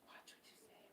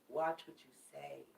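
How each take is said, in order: First: Whispered warning. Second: Softer, hushed caution; quiet warning. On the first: Tarot reader repeating her caution to viewers, whispered. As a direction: breathe the warning, no voice. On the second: Tarot reader cautioning viewers about retrograde, hushed. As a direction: lean in and warn softly. Repeated warning, dropping lower. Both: Real, not acted.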